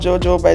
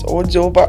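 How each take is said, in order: First: The word begins with a J sound. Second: The word begins with no J sound. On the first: The speaker calls it wrong. "I think we pronounce it wrong" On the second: The speaker calls it right. "the J is silent"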